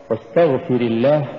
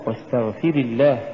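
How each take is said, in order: First: "واستغفر" with a short ri gliding into الله; masculine واستغفر. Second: "واستغفر" with fi-ri leaned on like a long i; mistaken feminine واستغفر. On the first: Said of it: "مثال ذلك أن نقرأ". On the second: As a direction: stretch واستغفر toward istaghfiri. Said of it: "ولا نقل". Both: Shown as a demonstration.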